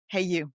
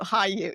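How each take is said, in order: First: The first word rhymes with 'day'. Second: The first word rhymes with 'high'. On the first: The speaker calls it right. "That's how it's pronounced" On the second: The speaker calls it wrong. "I think that's what a lot of them do"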